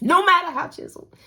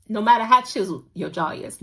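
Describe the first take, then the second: First: High, exasperated repeat; exasperated squeak. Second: Said in the usual way. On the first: Real, not acted. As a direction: squeak it in disbelief. Exasperated repeat about jaw.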